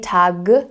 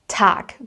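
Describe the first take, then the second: First: The word ends with a voiced G sound. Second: The word ends with a voiceless K sound. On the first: The speaker calls it wrong. "so I don't say Tag" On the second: The speaker calls it right. "will be pronounced as a K sound"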